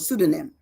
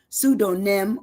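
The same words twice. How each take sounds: First: It is said quickly, syllables run together. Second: It is said slowly, syllable by syllable. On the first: "if you say it fast" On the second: "I break it down"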